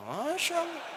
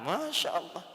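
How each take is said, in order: First: Sharp wife. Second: Said in the usual way. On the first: Acted. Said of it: "ibu lebih galak".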